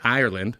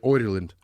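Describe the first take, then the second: First: It is said in a standard, non-Irish accent. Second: It is said in an Irish accent, like 'Oiland'. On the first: "they don't say Ireland" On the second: "they say Ireland"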